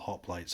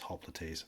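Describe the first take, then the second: First: It is said with an English-style pronunciation. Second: It is said with a Latin-style pronunciation.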